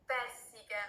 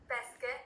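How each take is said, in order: First: "pesche" drawn out with an extra i, PEH-si-keh; Sicilian pronunciation. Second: Said in the usual way. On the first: Shown as a demonstration. Teaching a player the fruit in Sicilian, "pesche" said PEH-si-keh. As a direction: say "pesche" slowly in three syllables, PEH-see-keh. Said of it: "in Sicilian. That's like pesche". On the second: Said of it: "in Sicilian".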